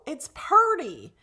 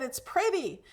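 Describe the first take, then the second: First: Pretty said as a slow "purdy"; local girl's pronunciation. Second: Said in the usual way. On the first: Retold or imitated. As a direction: say pretty as "PUR-dee", drawn out. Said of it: "They would say purdy". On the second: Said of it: "I said".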